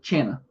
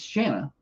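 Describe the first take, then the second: First: The name begins with a hard 'ch' sound. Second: The name begins with a soft 'sh' sound. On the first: Other teams say it this way. The speaker calls it wrong. "They say Channa" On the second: This is the name's own pronunciation. The speaker calls it right. "I'm like, it's Shanna"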